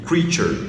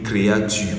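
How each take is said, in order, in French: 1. Le 'ea' se dit comme un long son 'ee'. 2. Le 'ea' se dit comme deux voyelles françaises. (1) "Ce mot se lit creature" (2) "ne se lit pas créature ... comme en français"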